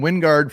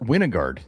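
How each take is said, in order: First: The name is said with two syllables. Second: The name has an extra middle syllable. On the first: The speaker calls it right. "It is freaking Wingard from Wyoming" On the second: The speaker calls it wrong. "who who pronounced it Winogard?"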